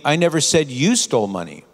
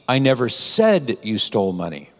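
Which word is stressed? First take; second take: you; said. First: The stress is on the word you. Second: The stress is on the word said.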